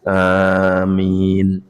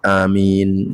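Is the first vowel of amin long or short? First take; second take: long; short. First: The first vowel is held long. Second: The first vowel is cut short. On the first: "Anipun panjang, mim minipun nggih panjang" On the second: "A-nya pendek, minnya panjang"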